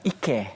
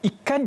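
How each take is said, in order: First: The word is said in Kelantan dialect. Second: The word is said in standard Malay. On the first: "kalau dalam dialek negeri Kelantan" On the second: "ikan juga"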